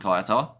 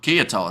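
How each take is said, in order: First: The first word sounds like 'kaya'. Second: The first word sounds like 'kia'. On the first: The speaker calls it wrong. "rather than Kaya Toa" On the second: The speaker calls it right. "Or Kia Toa, sorry"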